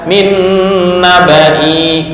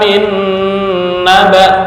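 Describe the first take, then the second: First: The last word ends with an added 'ee' sound. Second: The last word ends on an 'a' sound. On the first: The speaker calls it wrong. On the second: The speaker calls it right. "Jadi ketika diwaqafkan"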